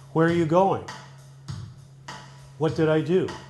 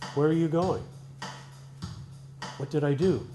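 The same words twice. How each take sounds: First: It sounds like demanding an answer. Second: It sounds simply puzzled, not demanding.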